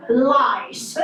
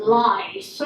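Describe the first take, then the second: First: Lice again with firm L, falling; clear L. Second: Lice with a crisp L, falling; clear L. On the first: Teacher repeating the word for husband, firm L. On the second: Teacher modelling the word for husband, careful L. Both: Shown as a demonstration. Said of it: "I didn't say rice".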